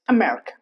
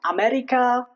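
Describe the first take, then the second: First: The first vowel is reduced to a short schwa. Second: The first vowel is a full, clear a sound. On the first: The speaker calls it right. "just America" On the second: The speaker calls it wrong. "not America"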